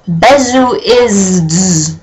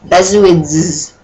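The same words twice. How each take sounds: First: Besuids sounded out as "pezuids", slow and puzzled; misspelled word read out. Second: Besuids sounded out as "bezuidz"; misspelled word read out. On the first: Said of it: "That's not a word". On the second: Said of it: "B E S U I Z D S". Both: Shown as a demonstration.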